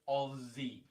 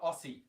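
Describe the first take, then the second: First: The middle consonant is a z sound. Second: The middle consonant is an s sound. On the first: The speaker calls it right. "It's just Z" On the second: The speaker calls it wrong.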